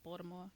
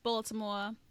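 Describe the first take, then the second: First: It is squeezed into nearly one syllable. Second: It is said with all its syllables.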